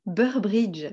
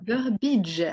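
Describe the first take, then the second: First: Burbridge said French-style, with an extra R before the i; French rendering of "Burbridge", both Rs sounded; French mispronunciation with added R. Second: Burbidge with no R after the second B; "Burbidge" corrected, ending in plain -bidge; corrected pronunciation without extra R. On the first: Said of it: "t'as rajouté un R". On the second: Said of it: "un endroit où il y en a pas". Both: Shown as a demonstration.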